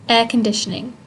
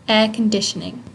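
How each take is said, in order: No difference in how they are said.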